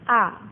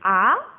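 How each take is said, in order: First: The pitch is short, light and unstressed. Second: The pitch rises like a surprised question. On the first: "nada ringan" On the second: "nada kedua itu naik"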